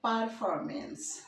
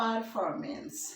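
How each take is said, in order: First: It is said in an American accent. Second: It is said in an American accent.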